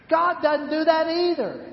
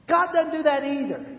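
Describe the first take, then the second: First: GOD stressed, falling firmly; emphatic repeat. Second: GOD stressed, falling firmly, slightly quicker; emphatic repeat. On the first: Preacher driving home that God doesn't do that. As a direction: hit God hard. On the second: Preacher repeating the point to the congregation. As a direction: say it again with weight on God. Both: Shown as a demonstration. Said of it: "repeated for emphasis".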